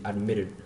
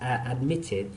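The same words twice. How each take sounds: First: The middle t sounds like a soft d. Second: The middle t is a clear t sound. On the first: "American people are pronounce the T as in D, and then they say admitted" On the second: "British people say admitted"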